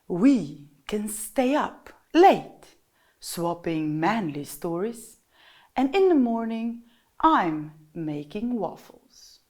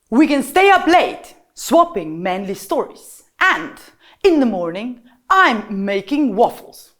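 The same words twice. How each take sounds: First: The voice is soft and gentle. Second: The voice is fast, loud and sharp. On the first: The speaker sounds like a tender lover. "soft-spoken voice, the voice of a lover" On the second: The speaker sounds like a military general. "fast, loud, sharp instructions. Okay, so the voice of a general"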